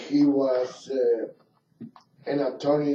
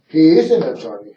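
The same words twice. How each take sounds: First: Said in the usual way. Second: Quick emphatic self-correction, hitting "is"; stress on IS. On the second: Real, not acted. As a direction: hit the word "is" hard and move briskly on. Corrects himself from was to is.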